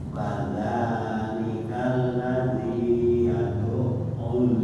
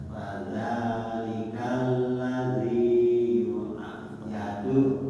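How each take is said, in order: The two takes are said the same way.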